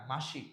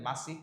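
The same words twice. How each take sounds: First: মাসিক with sh, "mashik"; correct pronunciation. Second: মাসিক with a hissed s, "masik"; wrong pronunciation. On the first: Teacher corrects to the everyday form, মাসিক with sh. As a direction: say the middle of মাসিক as sh. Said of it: "না, মাসিক". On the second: Teacher shows students what nobody says, মাসিক with s. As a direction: say the middle of মাসিক as s, not sh. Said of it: "আপনারা মাসিক বলেন না". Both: Shown as a demonstration.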